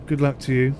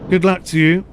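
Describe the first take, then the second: First: Said in the usual way. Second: Mock Welsh lilt on good luck; playful Welsh accent. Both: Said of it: "in that Welsh accent".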